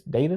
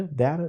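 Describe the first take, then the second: First: "Data" said DAY-tuh; DAY-tuh pronunciation. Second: "data" said DAT-uh; DAT-uh pronunciation. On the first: Curious teacher trying both out, "Data" as DAY-tuh. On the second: Curious teacher trying both out, "data" as DAT-uh. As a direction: try "data" with a short A, DAT-uh. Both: Shown as a demonstration. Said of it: "I'm just curious".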